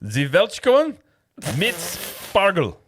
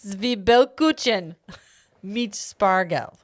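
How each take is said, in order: First: High, loud, drawn-out German bark; mock-furious German, each word attacked; very aggressive German. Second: Slow, measured German; calm, slow foreign-word reading; careful German pronunciation. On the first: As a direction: say it aggressively, with total confidence. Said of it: "say it very aggressively and with confidence". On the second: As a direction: sound out the German words evenly and deliberately. Repeats German calmly after aggressive take. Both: Shown as a demonstration.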